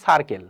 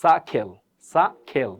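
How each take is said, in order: First: সার্কেল with the R sounded; R pronounced, unaspirated K in সার্কেল; common mispronunciation. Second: সাখেল with silent R, aspirated K; no R, puff of air on kh in সাখেল; correct pronunciation. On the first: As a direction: say সার্কেল as "sar-kel". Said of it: "but সার্কেল না". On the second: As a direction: say সাখেল as "saa-khel". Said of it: "এটা সঠিক উচ্চারণ হবে কি?". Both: Shown as a demonstration.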